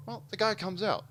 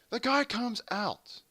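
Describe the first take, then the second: First: Said in the usual way. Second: "The guy comes out" drawn out slowly, high then falling; dramatic restart. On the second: Real, not acted. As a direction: stretch "guy comes out" high for a big reveal.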